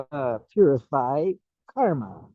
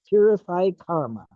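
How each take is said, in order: First: Said in the usual way. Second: Purify pitched up and stressed, karma falls; repeated for emphasis. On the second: Shown as a demonstration. Teacher repeating Purify karma to students, stressing Purify. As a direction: land hard on Purify, let karma drop. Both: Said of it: "You, you heard me right?".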